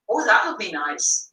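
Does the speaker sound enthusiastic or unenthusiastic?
enthusiastic. It is said warmly, with real enthusiasm. The speaker really thinks it is nice. The speaker calls it right. "this is the same as the words I'm using"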